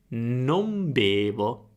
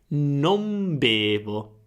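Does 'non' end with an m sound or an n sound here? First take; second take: m sound; m sound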